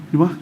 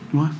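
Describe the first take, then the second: The two takes are said the same way.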